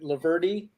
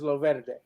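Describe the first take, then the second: First: The surname is said the family's way. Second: The surname is said the Italian way. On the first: This is how the family always said it. The speaker calls it wrong. "in my family, we always pronounced it Laverdi" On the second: This is the correct Italian pronunciation. The speaker calls it right. "the correct Italian pronunciation is Loverde"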